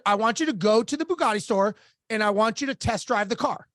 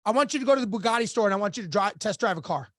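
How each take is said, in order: First: Retold instruction, evenly spaced for emphasis; deliberate repeat. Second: Quick, matter-of-fact retold order; brisk instruction. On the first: Coach repeats the task to a stunned client, deliberate and firm. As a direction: spell out the order in measured phrases. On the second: Coach sets his client a task, brisk and matter-of-fact. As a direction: rattle off the instruction quickly, dropping at the end.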